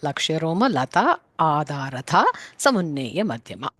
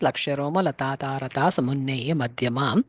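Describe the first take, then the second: First: A separate 'a' vowel is heard before daratha. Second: Lata and daratha run together without a separate vowel. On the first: This form shows the word's meaning. "when we want to understand it, we have to say Adaratha" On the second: This is the usual recited form. "even though we pronounce it as"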